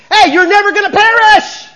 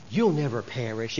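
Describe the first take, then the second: First: Huge high-pitched shout; double emphatic. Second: Said in the usual way. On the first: Shown as a demonstration. Preacher shows congregation the Greek's force, emphatic shout. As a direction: yell it out with full force. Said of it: "is double emphatic". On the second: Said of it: "Not, "You'll never perish." It was".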